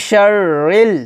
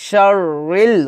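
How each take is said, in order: Both takes have the same delivery.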